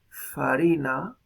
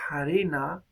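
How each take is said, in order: First: The word begins with an f sound. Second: The word begins with a breathy h sound. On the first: "en latín una palabra como farina" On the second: "llega a pronunciarse harina"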